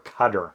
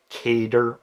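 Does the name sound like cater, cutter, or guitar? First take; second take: cutter; cater. First: It sounds like the word cutter. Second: It sounds like the word cater. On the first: "or cutter" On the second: "people are flat out wrong when they say cater"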